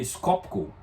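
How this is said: The name is read with Brazilian Portuguese sounds. This is how Brazilians would read it. "seria Skopko para nós"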